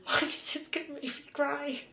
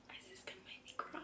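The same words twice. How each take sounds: First: Voiced again, a little higher and choked up; emotional, teary. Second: Whispered, close to tears; tearful whisper. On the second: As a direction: breathe the words out, almost crying. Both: Real, not acted.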